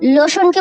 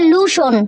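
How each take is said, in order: First: The first vowel sounds like 'oh'. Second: The first vowel sounds like 'oo'. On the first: "লোশনকে বলবে" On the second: "বলবে লুশন"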